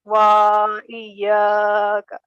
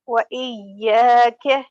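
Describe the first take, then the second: First: Wa dragged long before iyaka; wrongly prolonged wa. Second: Wa iyaka with quick wa and long ya; correct short wa. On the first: Retold or imitated. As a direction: hold wa far too long, then iyaka. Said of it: "people even prolong it". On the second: Shown as a demonstration. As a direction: keep Wa short, hold ya in iyaka. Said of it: "We don't have to prolong waw".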